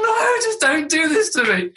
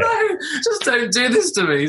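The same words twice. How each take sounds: First: Slow, laughing and half-crying plea; laughing despair. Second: Slow plea through helpless laughter; laughing despair. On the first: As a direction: beg through helpless laughter, slowly. Embarrassed dad recalls inner plea. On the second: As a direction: beg the moment away, laughing slowly. Embarrassed dad repeats inner plea. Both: Retold or imitated.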